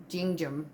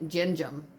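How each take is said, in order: The two takes are said the same way.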